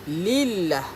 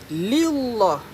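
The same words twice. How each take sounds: First: The L is thin and light. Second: The L is thick and full-mouthed. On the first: The speaker calls it right. "Kita sebut lillah" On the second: The speaker calls it wrong. "Tak sebut macam tu"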